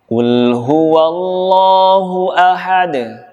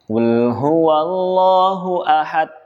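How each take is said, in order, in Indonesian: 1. Huruf d di akhir diakhiri dengan pantulan ringan. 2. Huruf d sama sekali tidak memantul. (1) "Saya contohkan lagi" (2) "Tidak ada pantulan, tidak ada qalqalah"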